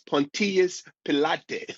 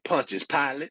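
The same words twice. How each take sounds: First: It is said in an Italian-style way. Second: It is said the usual American way. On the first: "he's Italian, it's Pontius Pilate" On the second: "in the church in America, they we say Pontius Pilate"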